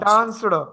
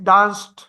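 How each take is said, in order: First: The ending is a clear d sound. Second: The ending is a t-like sound. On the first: The speaker calls it wrong. "डान्सड असं नाहीत म्हणत इंग्लिशमध्ये" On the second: The speaker calls it right. "ड नाहीत करत इंग्लिशमध्ये. ट असं करतात"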